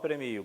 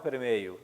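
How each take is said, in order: First: The ending is a plain 'io' sound. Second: The ending has an extra 'ei' sound. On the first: This is the usual form in Brazil. "no Brasil o normal é premio" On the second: This is the usual form in Portugal. "lá em Portugal o normal é premeio"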